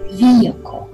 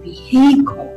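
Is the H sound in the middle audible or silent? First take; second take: silent; audible. First: The middle H sound is silent. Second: The middle H sound is pronounced. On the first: The speaker calls it right. "There's no H" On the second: The speaker calls it wrong. "you wouldn't pronounce this as vehicle"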